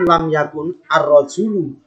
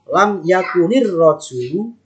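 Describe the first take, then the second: First: The final n stays closed, followed by a separate 'ar'. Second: The final n takes an i vowel, linking to rajulu. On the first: The speaker calls it wrong. "kan tidak mungkin lam yakun ar-rajulu" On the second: The speaker calls it right. "Nanti bacanya lam yakunir rajulu qaiman"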